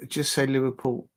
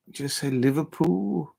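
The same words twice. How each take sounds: First: Said in the usual way. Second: Slow, drawn-out Scouse on Liverpool; attempted Scouse accent. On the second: Shown as a demonstration. Fan practising the city's name, tentative Scouse accent. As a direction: try Liverpool in Scouse, stretching it out. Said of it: "a Scouser's accent".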